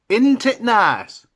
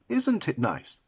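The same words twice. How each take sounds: First: It is said in a Yorkshire accent. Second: It is said in a standard English accent.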